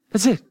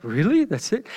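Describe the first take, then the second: First: Said in the usual way. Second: Really? then That's it rising in disbelief; incredulous. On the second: Retold or imitated. Reader reacting to the short Bible account, incredulous. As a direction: ask That's it as if you can't believe it. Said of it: "You're like".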